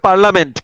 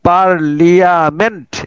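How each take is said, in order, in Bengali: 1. 'parl' এর পরে কোনো 'ee' সিলেবল উচ্চারিত হয় না। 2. 'parl' এর পরে একটি অতিরিক্ত 'ee' সিলেবল উচ্চারিত হয়। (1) "উচ্চারণ হবে পার্লামেন্ট" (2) "কিন্তু আমি মনে মনে চিন্তা করবো পার্লিয়ামেন্ট"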